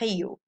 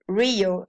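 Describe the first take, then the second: First: It begins with an H-like sound. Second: It begins with an English R sound. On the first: "in Portuguese is Rio" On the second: "Rio in English"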